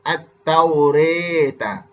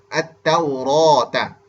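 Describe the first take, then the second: First: The vowel after r sounds close to e. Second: The vowel after r is a full open a. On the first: "condong ke arah kasrah... bunyi re" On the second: "baris fathah, baris atas"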